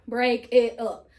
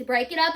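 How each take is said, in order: First: "break it up" slow, each word set apart; segmented. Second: Said in the usual way. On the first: Shown as a demonstration. Teacher explaining segmenting, "break it up" said slowly word by word. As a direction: chop "break it up" into separate slow words. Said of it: "I'm gonna segment". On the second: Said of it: "which means break it up".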